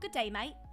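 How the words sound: It is said in a British accent.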